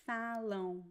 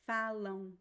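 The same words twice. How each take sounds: Both takes have the same delivery.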